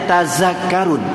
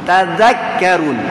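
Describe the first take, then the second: No difference in how they are said.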